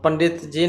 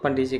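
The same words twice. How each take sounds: First: Every sound of the phrase is pronounced fully. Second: A sound is dropped in quick speech. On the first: "पंडित जी न कह करके" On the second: "आधा खा लेते हैं"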